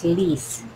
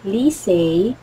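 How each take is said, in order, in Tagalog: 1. Nagtatapos ang pangalan sa maikling tunog na 'eh'. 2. Nagtatapos ang pangalan sa tunog na 'ay'. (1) "before, ang pag-pronounce ko sa kanya is Lise" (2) "But it pronounced as Lisay"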